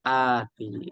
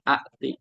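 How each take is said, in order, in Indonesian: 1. Vokal pertama panjang tanpa hamzah. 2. Hamzah muncul setelah vokal pertama. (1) "diubah menjadi ati" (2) "ini kan dua hamzah"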